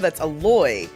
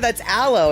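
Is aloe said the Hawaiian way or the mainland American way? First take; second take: Hawaiian; mainland American. First: Aloe is said the way people say it in Hawaii. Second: Aloe is said the usual mainland American way. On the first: "And I was like, no" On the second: "they're like, yeah"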